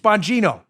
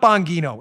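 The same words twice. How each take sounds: First: The g is said like a j. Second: The g is said as a hard g. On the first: The speaker calls it right. "The Italians pronounce their G, G's like J's" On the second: The speaker calls it wrong. "It's not"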